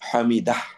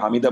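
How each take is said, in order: First: The word ends with an audible h sound. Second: The word ends on a plain vowel. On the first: It includes the pronoun meaning him. The speaker calls it right. "হামিদাহ এবার করে আপনাকে বলতে হবে" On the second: The pronoun is missing and the sentence is incomplete. The speaker calls it wrong. "আপনি যদি শুধু হামিদা বলেন, তার শব্দটা এখানে আসে না"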